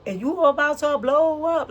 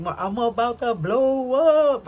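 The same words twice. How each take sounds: First: High, loud hype call; hyped announcement. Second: Hyped brag. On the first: Pretend. Tarot reader hyping up her viewers, excited. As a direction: pump them up, big and bright. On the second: Retold or imitated. Imitating hyped gossip quote.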